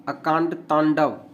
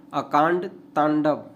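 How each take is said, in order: Both takes have the same delivery.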